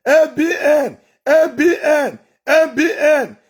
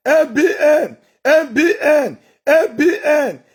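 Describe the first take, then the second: No difference in how they are said.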